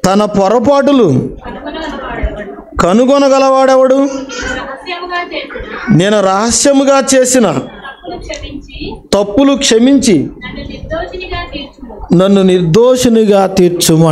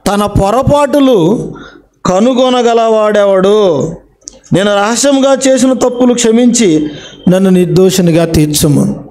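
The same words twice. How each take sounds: First: Measured reading of a psalm verse with long pauses; solemn Bible verse recital; scripture reading. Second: The verse again, slowly, each phrase drawn out; slow it right down to drive the verse home; preacher repeating scripture slowly for emphasis; slow emphatic repeat. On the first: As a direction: read the verse out solemnly, phrase by phrase. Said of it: "దేవుడు ఏమంటున్నాడో చూడండి ఒకసారి". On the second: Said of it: "చూసారా?". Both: Shown as a demonstration.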